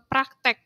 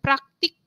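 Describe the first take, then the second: First: The second vowel sounds like 'e'. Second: The second vowel sounds like 'i'. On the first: This is the common non-standard form. The speaker calls it wrong. "bukan eee, praktek, biasanya kan kita mengenalnya praktek" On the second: This is the standard form. The speaker calls it right. "Contoh kata baku"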